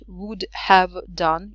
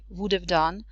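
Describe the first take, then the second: First: Each word of 'would have' is said fully. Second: 'Would have' is shortened and run together. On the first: The speaker calls it wrong. "it's not would have done" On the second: The speaker calls it right. "in the connected speech it uh, may, made shorter"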